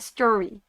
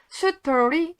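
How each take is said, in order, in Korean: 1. 이 단어는 영어 소리로 말했어요. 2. 이 단어는 한국어 음절과 모음으로 말했어요.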